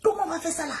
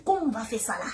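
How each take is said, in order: First: COMMENT flung up high in alarm; high panicked cry. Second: Said in the usual way. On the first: Retold or imitated. Niece panicking over the aunt's news, high alarmed cry. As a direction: wail the question in panic.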